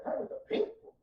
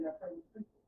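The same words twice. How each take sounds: First: High voice of God. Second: God's quiet command. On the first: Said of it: "He said". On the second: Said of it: "God said". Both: Acted.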